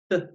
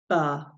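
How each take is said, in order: First: The consonant is short with no vowel after it. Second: The consonant has an added uh vowel after it. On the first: The speaker calls it right. "we say b" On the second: The speaker calls it wrong. "and not ba"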